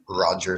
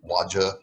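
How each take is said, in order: First: The name begins with an R sound. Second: The name begins with a W sound. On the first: The speaker calls it right. "making specific sounds like R" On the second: The speaker calls it wrong. "which is what I did when I was a child"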